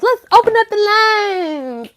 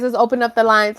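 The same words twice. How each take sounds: First: High, loud, drawn-out announcement; hammed-up host call. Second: Said in the usual way. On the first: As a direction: belt it out slowly like a hotline host. Repeats it as show host.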